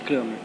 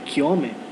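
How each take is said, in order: First: The name is said with a plain local pronunciation. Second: The name is said with a Swedish-like pronunciation. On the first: The speaker calls it wrong. "não seria simplesmente Kramer" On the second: The speaker calls it right. "Ele era sueco, então a pronúncia seria mais próximo disso"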